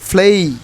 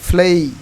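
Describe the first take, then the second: First: The vowel glides upward into an 'ee'. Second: The same.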